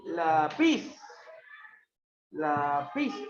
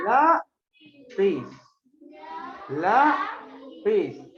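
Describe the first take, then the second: First: "lápiz" as la-PIZ, rising on the last syllable; low "la", then lift and lean on "piz"; wrong stress demonstrated. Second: Teacher's drawn-out LÁ... piz; stress on LA. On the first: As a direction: mimic the mistaken la-PIZ. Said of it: "Tú no dices así". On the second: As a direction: exaggerate LA in "lápiz", split the syllables. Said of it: "¿dónde está la fuerza de voz?". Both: Shown as a demonstration.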